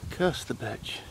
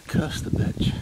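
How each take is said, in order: First: Voiced but hushed, falling off at the end; soft voiced curse at the owl; quiet muttered curse. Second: Breathy whispered curse under the breath; whispered Welsh-free curse at the owl. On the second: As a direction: hiss it so the owl won't hear. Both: Real, not acted. Hushed curse while watching owl.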